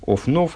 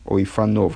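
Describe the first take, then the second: First: There is no vowel between the f and n. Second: An 'a' vowel follows the f sound. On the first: This is the reading found in the text. "Вот это вот «офнов»" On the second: This is the reading if the word meant wheel. "С патахом под пей"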